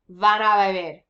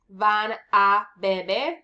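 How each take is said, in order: First: The words run together in one smooth flow. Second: The words are split apart with small gaps. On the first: The speaker calls it right. "No, you're going to say" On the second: The speaker calls it wrong. "And the same thing here"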